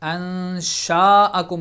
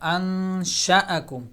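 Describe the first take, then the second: First: The vowel after 'sh' is stretched long. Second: The vowel after 'sh' is kept short. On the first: The speaker calls it wrong. "अंशाअकुम नहीं पढ़ेंगे" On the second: The speaker calls it right. "ज़बर को स्ट्रेच नहीं किया जाता"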